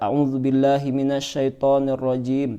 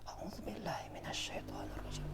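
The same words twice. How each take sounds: First: It is said aloud, clearly voiced. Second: It is said quietly, barely audible.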